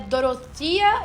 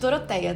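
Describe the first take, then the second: First: The name is pronounced the English way. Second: The name is pronounced the Portuguese way. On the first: "Eu acredito que é assim que pronuncia em inglês" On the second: "a gente fala português, eu vou chamar ela de Doroteia"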